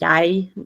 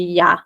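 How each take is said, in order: First: The word is said in its full form. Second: The word is said shortened, like ja. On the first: "I know I say jeg now" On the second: "we tend to just say ja"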